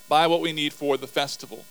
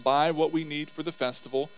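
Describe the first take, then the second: First: Buy said with more volume and push; louder reread. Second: Said in the usual way. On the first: Shown as a demonstration. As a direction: reread it firmer and faster.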